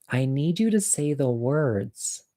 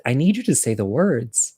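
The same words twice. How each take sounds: First: Slow, measured demand in a lowered volume; firm, drawn-out insistence, kept quiet; not so nice. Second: Gentler request at an easy pace; mildly kind, everyday-volume plea; trying to be nice. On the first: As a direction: spell out the demand slowly and softly. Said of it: "I think I said it nicer than that". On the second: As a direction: ask it nicely, without drawing it out. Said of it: "I tried really hard to say it nice". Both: Retold or imitated.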